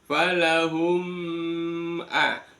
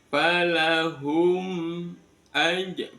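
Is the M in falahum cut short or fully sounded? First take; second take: cut short; fully sounded. First: The M sound is cut short into the vowel. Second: The M sound is held fully before the vowel. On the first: The speaker calls it wrong. "bukan falahum a" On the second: The speaker calls it right. "disempurnakan bunyi M ya"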